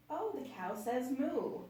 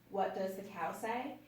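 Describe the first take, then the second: First: Higher, slower, gentle remark; calm comment. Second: Said in the usual way. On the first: Shown as a demonstration. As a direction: say it slowly, as a comment. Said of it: "you can say". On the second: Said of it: "Instead, you can say".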